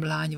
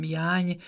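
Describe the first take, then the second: First: "lány" begun with a clear l; standard L sound. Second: "jány" begun with a y-glide; j in place of l in "jány". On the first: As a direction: say "lány" with l, not j. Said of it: "a köznyelvi ellek helyén". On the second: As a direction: dialect "jány", no l at the start. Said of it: "elő jég". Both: Shown as a demonstration.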